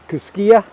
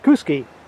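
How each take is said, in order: First: The name ends with an extra 'ah' vowel. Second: The name ends without an extra vowel. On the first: The speaker calls it wrong. "I've been pronouncing it Kuskia because uh, it does end with an A" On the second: The speaker calls it right. "everybody says it's pronounced Kuski"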